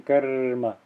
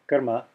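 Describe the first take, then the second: First: Karma with a long drawn-out r before ma; extended r. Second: Said in the usual way. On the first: Shown as a demonstration. Teacher contrasting two ways of saying it, extended r in karma. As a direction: hold the r in karma, then ma. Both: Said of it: "I'm not saying karma".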